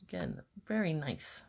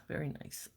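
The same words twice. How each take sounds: First: Said in the usual way. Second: Very nice, repeated as a soft whisper; whispered echo. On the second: Real, not acted. Crafter admiring her own stamping, whispered to herself. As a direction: breathe it again to yourself, admiring.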